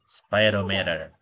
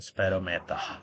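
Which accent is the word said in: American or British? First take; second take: American; British. First: It is said in an American accent. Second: It is said in a British accent. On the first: "logatnya logat Amerika" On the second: "Kalau logatnya British"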